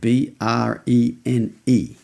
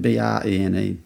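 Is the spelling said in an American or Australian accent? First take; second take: American; Australian. First: The letters are spelled in an American accent. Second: The letters are spelled in an Australian accent.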